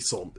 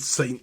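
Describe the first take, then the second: First: Saint is given a French pronunciation. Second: Saint is given an English pronunciation. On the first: The speaker calls it right. "it should be Sant" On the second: The speaker calls it wrong. "It should not be Saint Louis"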